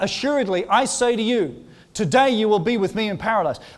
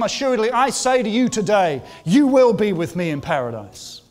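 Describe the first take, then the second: First: There is a pause just before 'today'. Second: There is a pause just after 'today'.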